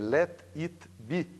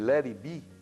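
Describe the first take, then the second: First: Each syllable is pronounced separately, as written. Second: The words run together smoothly, English style. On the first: The speaker calls it wrong. "a vontade é dizer let it be, porque é, é como ela está escrita" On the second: The speaker calls it right. "em vez de eu dizer let it be"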